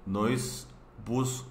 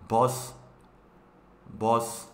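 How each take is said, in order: First: Said in the usual way. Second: "bus" fuerte y marcado; pronunciación coreana. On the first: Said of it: "puse así". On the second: Shown as a demonstration. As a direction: remarca "bus" al estilo coreano. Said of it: "No es bus, es". (pronuncia "bus" con golpe fuerte)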